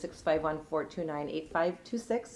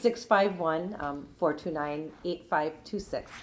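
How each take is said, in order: First: The number is said fast. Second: The number is said slowly.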